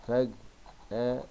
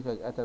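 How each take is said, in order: First: "فجأة" slowly split into its syllables; very slow, separated "فجأة". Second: Said in the usual way. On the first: Shown as a demonstration. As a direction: dictate "فجأة" piece by piece as you write. Dictates word while writing.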